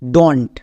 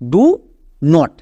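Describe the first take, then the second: First: It is said as one contracted syllable. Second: It is said as two separate full words. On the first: The speaker calls it right. "এদেরকে একসঙ্গে উচ্চারণ করা হয়" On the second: The speaker calls it wrong. "এখানে আমাদের দুটো word আছে"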